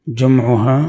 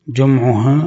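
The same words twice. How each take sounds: The two takes are said the same way.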